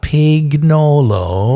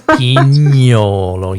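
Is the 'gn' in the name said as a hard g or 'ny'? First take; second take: hard g; ny. First: The 'gn' is said with a hard g sound. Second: The 'gn' is said as a 'ny' sound. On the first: The speaker calls it wrong. "it's not pignolo" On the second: The speaker calls it right. "it's pignolo"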